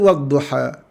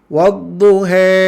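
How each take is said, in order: First: The final a is a normal open vowel. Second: The final vowel leans too far toward e. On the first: The speaker calls it right. "Dia mesti wadduha" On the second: The speaker calls it wrong. "dia terlebih. Ha, terlebih imalahnya"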